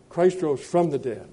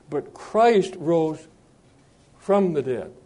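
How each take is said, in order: First: Said in the usual way. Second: Very slow, "Christ" held and set apart by a pause; deliberate, halting emphasis; stress on CHRIST. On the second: Shown as a demonstration. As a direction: stretch it out and pause before "from the dead". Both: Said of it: "not all the dead rose".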